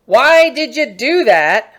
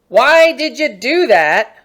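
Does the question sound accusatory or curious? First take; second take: accusatory; accusatory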